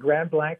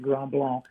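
First: Blanc sounds like the English word blank. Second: Blanc has a French-style vowel with no k. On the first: "That's exactly the way everybody pronounced it"

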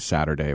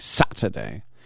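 First: The middle consonant sounds like a soft D. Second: The middle consonant is a crisp T.

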